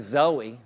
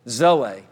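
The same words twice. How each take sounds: First: The final vowel sounds like 'ee'. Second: The final vowel sounds like 'ay'. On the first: The speaker calls it wrong. "They say Zoe" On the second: The speaker calls it right. "The E is pronounced as a long A"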